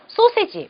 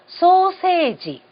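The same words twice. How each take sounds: First: The word is said in three short beats. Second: The word is said in five beats, vowels lengthened. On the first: "우리식으로 얘기를 한다 그러면요... 딱 세 박자면은 발음이 돼요" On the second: "일본에서는요... 음이 길어지는 부분... 다섯 박자로"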